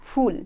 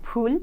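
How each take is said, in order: First: The first sound uses lower lip and teeth. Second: The first sound is made with both lips. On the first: The speaker calls it wrong. "অধিকাংশ মানুষ আমাদের দেশে ফুল উচ্চারণ করেন ভুলভাবে।" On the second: The speaker calls it right. "আসলে হবে ফুল, ... কারণ এগুলো ওষ্ঠ থেকে উচ্চারিত হয়"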